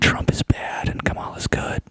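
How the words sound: It is said in an NPR-presenter voice.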